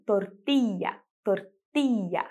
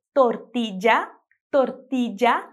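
First: Tortilla with ll as a long i, tortiia; tortilla, ll drawn out as i. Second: Tortilla with a j sound on ll, tortidja; tortilla, ll as in jazz. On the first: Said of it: "com esse I mais longo". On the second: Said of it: "com esse som de já". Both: Shown as a demonstration.

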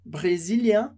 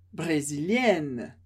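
First: "Brésilien" with nasal ending, no n sounded; masculine form. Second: "brésilienne" slow and low, -enne clearly sounded; feminine form, slow. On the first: Teacher contrasts masculine and feminine, clear model. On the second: Teacher contrasts masculine and feminine, slow and deliberate. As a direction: draw out "brésilienne" to show the ending. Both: Shown as a demonstration. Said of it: "muda a pronúncia".

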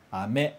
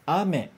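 First: Ame mit tiefem a und steigendem me; Ame: me steigt und wird stärker; ame, Bonbon. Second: Ame mit hohem, betontem a; Ame: a stark, me fällt; ame, chuva. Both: Shown as a demonstration. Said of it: "um seguido do outro pra gente ouvir e comparar".

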